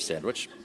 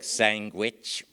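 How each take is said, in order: First: It is said in a standard accent. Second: It is said in a Brooklyn accent. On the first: "instead of sandwich" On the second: "various Brooklynese expressions like sandwich"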